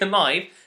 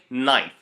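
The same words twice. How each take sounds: First: The word begins with a K sound. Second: The word begins with an N sound. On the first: The speaker calls it wrong. "never say" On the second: The speaker calls it right. "don't pronounce the K"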